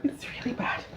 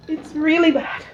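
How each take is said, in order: First: Whispered in pain from the heat. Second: Said in the usual way. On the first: Real, not acted. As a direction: breathe it out, no voice.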